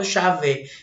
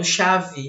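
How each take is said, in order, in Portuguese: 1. A vogal final soa como 'e'. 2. A vogal final soa como 'i'. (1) "eu não falo chave" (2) "o E com som de I, que eu falo chave"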